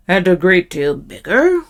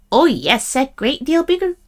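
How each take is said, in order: First: Lightly voiced troll, rising on BIGGER; questioning troll. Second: Small goat, rising high on "great deal bigger"; little goat voice. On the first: Troll checking the little goat's claim, questioning. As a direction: ask it as a troll, lifting "bigger". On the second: Little goat assuring the troll, small high voice. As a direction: answer as an eager little goat. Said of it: "in his little bit of voice". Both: A narrator's reading.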